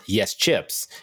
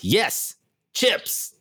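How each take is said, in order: First: The phrase is said flatly, without exclamation. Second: The phrase is said excitedly, like an exclamation. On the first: The speaker calls it wrong. "It's not yes chips" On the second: The speaker calls it right. "There's actually two exclamation points"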